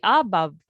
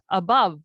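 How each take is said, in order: First: "above" as AH-buv, stressing the a; wrong-syllable stress. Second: "above" as uh-BUV, a unstressed; second-syllable stress. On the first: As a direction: punch the first syllable of "above". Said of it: "hindi above". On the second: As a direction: keep the a light and hit BOVE in "above". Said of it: "Unstressed syllable siya since we pronounce it as". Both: Shown as a demonstration.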